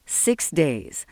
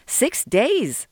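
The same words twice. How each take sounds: First: Level, understated firm statement. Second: High-pitched disbelieving question; incredulous protest. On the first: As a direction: state it as settled fact. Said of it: "said Dominic firmly". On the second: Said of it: "Sol protested". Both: A narrator's reading.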